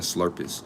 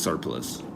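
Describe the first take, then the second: First: The word begins with slur, sounds swapped around. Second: The word begins with sur, sounds in order. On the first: The speaker calls it wrong. "I'm saying slurpers" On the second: The speaker calls it right. "but it's surplus"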